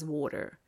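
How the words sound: The T is softened, almost like an R. "az amerikai angol a T hangokat kicsit lágyítja, erresíti"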